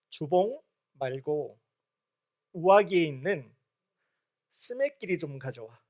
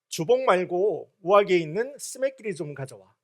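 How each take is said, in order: First: The sentence is said slowly. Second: The sentence is said fast.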